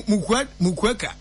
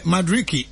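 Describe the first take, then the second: First: Stumbling over Mukweka, reading it with a U; misreading the name as Mukweka. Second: Madueke read out properly as ma-drih-kee; correcting himself to Madueke; corrected name. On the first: Stumbling as he misreads the player's name. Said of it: "mi hu no M U". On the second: Correcting the name after his friend says it. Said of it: "Ah, M A, mi hu no M U". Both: Real, not acted.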